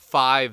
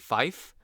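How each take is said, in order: First: The word ends with a voiced 'v' sound. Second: The word ends with a voiceless 'f' sound. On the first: This is the everyday pronunciation. "five they don't do" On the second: This is the military radio pronunciation. "I think they say fife"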